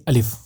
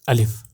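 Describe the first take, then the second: No difference in how they are said.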